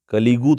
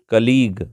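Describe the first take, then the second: First: The word ends with an added 'oo' vowel. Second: The word ends on a 'g' consonant. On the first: The speaker calls it wrong. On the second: The speaker calls it right.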